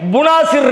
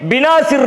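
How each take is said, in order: First: The first vowel is a u sound. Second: The first vowel is an i sound. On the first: "புனாசிர் இருக்கு" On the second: "பினாசிர் இருக்கு"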